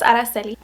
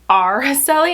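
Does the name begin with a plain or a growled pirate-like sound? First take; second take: plain; growled. First: The name begins with a plain, smooth vowel. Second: The name begins with a growled, pirate-like 'arr'. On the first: The speaker calls it right. "my real name is Araceli" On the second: The speaker calls it wrong. "Most people say Araceli, and it's like, dude, I'm not a pirate"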